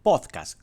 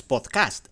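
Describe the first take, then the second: First: "podcast" slowly, with the force on POD; stress on POD. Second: "podcast" with the weight on the last syllable, CAST; wrong stress on CAST. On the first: Host teaches listeners the correct Spanish word, "podcast" stressed on POD. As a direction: hit the first syllable of "podcast", POD, and let cast drop. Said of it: "con la acentuación o la parte tónica donde ponemos la fuerza en pod". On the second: Host demonstrates the mistake Siri cannot understand, "podcast" stressed on CAST. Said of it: "donde ponemos la fuerza en pod, no en cast". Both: Shown as a demonstration.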